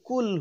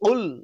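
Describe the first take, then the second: First: It starts with a light k sound. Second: It starts with a deep, forceful q sound. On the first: The speaker calls it wrong. "যদি বলি কুল হু আল্লাহু আহাদ, তাহলে অর্থটা বিপরীত হয়ে যায়" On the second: The speaker calls it right. "এরকম ধাক্কা দিয়ে উল"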